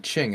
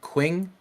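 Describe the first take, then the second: First: The word starts with a ch sound. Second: The word starts with a kw sound. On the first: The speaker calls it right. "but it's pronounced the Ching" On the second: The speaker calls it wrong. "I always called it the Queen"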